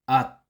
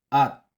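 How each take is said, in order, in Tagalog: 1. Nagtatapos ang pantig sa tunog T. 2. Nagtatapos ang pantig sa tunog T.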